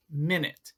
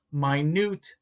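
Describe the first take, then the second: First: "minute" said as MIN-it; contrasting pronunciation. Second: "minute" said as my-NOOT; correct pronunciation. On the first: Teacher showing which pronunciation to avoid, careful contrast. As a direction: say "minute" like the unit of time, MIN-it. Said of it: "not minute". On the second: Teacher showing how the word for tiny sounds, careful pronunciation. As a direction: say "minute" with a long I, stress on a long NOOT. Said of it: "pay attention to the pronunciation". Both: Shown as a demonstration.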